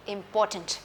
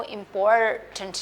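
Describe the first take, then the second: First: Important in one blended word, no R; silent R in important. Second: Important broken in two with a full R; wrong important, lingering on "por"; R drawn out in important. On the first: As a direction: correct important with the R left silent. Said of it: "ये थोड़ा silent होता है". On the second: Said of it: "आप इसको इंपॉर्टेंट नहीं कहेंगे". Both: Shown as a demonstration.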